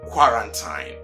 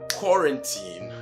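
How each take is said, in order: First: The last syllable sounds like "time". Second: The last syllable sounds like "teen". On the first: The speaker calls it wrong. "and not quarantine" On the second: The speaker calls it right. "So it is quarantine"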